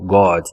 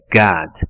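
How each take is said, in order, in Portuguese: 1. A vogal é um som de O forte. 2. A vogal é um som de A. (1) "Não é esse som forte de O" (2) "é um som de A"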